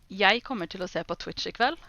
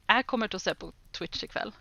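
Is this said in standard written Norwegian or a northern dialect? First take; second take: standard; northern dialect. First: It is said slowly in standard written Norwegian. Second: It is said in a northern Norwegian dialect. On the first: "I can do it slower. ... that's what is written there" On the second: "But I would say"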